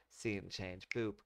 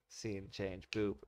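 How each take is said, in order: No difference in how they are said.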